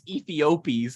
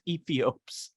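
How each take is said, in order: First: The ending is said as an extra syllable. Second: The ending is said without an extra syllable. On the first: The speaker calls it wrong. "I don't think it's Ethiopies" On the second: The speaker calls it right. "I think the E's at the end. I think it's just Ethiops"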